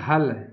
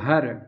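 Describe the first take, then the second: First: The word ends with an l sound. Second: The word ends with an r sound. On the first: This is the Western Hindi form. "एक शब्द है हल" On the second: This is the Eastern Hindi form. "अवधी में हो जाएगा हर"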